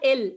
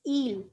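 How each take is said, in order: First: The vowel is short and clipped. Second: The vowel is long and drawn out. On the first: The speaker calls it wrong. "It's not ill" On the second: The speaker calls it right. "It's eel. Add as many e's as you can"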